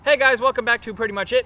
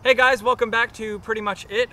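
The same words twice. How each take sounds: First: It is said with full, high enthusiasm. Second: It is said with some added enthusiasm.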